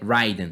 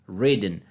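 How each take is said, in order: First: The first vowel is an 'eye' sound. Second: The first vowel is a short 'i'. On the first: The speaker calls it wrong. "não" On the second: The speaker calls it right. "Sempre o som vai ser fechado"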